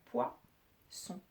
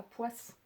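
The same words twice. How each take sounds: First: Poisson broken as poi, pause, son; split before the S. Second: Poisson broken as poiss-son, S sounded on both sides; split after the S. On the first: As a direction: say poisson slowly with an open first syllable poi, then son. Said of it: "j'entends poisson". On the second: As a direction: say poisson with an S closing the first syllable, then son. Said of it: "J'entends pas poisson". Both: Shown as a demonstration.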